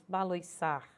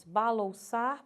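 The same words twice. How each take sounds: First: "baloiçar" com ditongo OI; variante com OI. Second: "Balouçar" com ditongo OU; variante com OU. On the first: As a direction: marque o I de "baloiçar". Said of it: "ora vou ter grafado com oi". ("baloiçar" dito ba-loi-çar) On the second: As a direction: marque o U de "Balouçar". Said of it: "ora grafado com ou". ("Balouçar" dito ba-lou-çar) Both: Shown as a demonstration.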